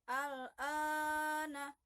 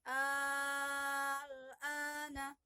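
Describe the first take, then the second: First: The second vowel is held long. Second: The first vowel is held long. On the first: The speaker calls it wrong. "Jadi bacanya bukan" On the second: The speaker calls it right. "tapi; yang panjangnya adalah hamzah yang pertama"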